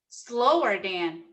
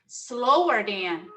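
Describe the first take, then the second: No difference in how they are said.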